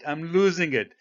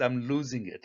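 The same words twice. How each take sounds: First: Louder and higher, losing patience; mock exasperation, voice rising; half-playful frustrated outburst; exasperated. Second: Said in the usual way. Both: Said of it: "So I'm getting upset now".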